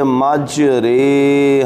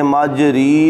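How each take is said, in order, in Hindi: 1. दूसरे अक्षर में झुका हुआ 'e' स्वर है। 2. दूसरे अक्षर में पूरा 'ee' स्वर है। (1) "इमाला का जो रा होता है उसको रे पढ़ते हैं" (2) "यहाँ आपने मज री नहीं पढ़ना"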